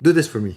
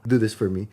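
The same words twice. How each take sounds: First: It is said in a flat, blunt tone. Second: It is said in a soft, affectionate tone. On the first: It comes across as a cold order in writing. "Sa email kasi mukhang" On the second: It is a friendly request made in conversation. "pag nag-uusap tayo, like parang, love"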